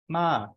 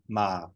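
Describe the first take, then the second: First: The pitch starts very high and falls. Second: The pitch starts below middle and goes lower. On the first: "a falling tone that starts at about five and falls" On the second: "a low tone that starts just below the mid-tone and goes lower"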